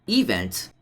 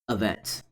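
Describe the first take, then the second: First: The first vowel is a full, clear vowel. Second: The first vowel is a weak schwa. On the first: The speaker calls it wrong. "not event" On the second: The speaker calls it right. "there's a hidden schwa"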